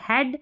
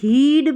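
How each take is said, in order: First: The vowel is a short 'e' sound. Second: The vowel is a long 'ee' sound. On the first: The speaker calls it right. "ए करके है। जैसे यहाँ पर देखिए हेड" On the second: The speaker calls it wrong. "हीड, ब्रीड नहीं पढ़ रहे"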